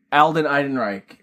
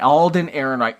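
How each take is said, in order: First: Alden Ehrenreich said as AL-den EYE-den-rike; own mispronunciation. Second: Alden Ehrenreich said as AWL-din AIR-en-rike; corrected pronunciation. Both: Real, not acted. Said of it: "how I pronounce it".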